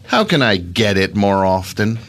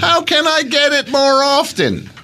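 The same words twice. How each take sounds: First: It is said in a seductive, sultry tone. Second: It is said in a flat, neutral tone. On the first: "Don't say it like in like a sexy way" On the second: "Is that neutered enough for you?"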